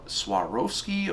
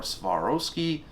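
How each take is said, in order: First: Swarovski said slowly, first try; unsure pronunciation. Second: Swarovski said slowly with a v, as Svarovski; alternative pronunciation. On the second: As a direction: offer "Swarovski" with v for w. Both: Shown as a demonstration. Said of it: "I'm not sure how to pronounce it".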